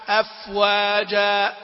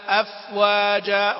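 No difference in how they are said.

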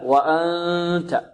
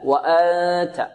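First: Most of the sound comes through the nose. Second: All of the sound comes from the mouth. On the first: The speaker calls it right. "لكن الصحيح أن الصوت الذي يخرج من الأنف أكثر" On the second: The speaker calls it wrong. "بعض الطلاب يخرج الصوت من الفم فقط"

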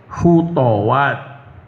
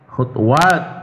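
First: The second letter carries an a vowel. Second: The second letter carries no vowel. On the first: "huruf yang kedua dibaca fathah" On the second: "huruf yang kedua tetap seperti semula, yakni disukun"

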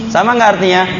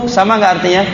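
No difference in how they are said.

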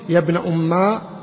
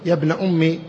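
First: The phrase ends in a long a vowel. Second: The phrase ends in a short i vowel. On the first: The speaker calls it wrong. "بالألف" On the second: The speaker calls it right. "بالكسر"

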